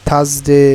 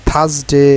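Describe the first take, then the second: No difference in how they are said.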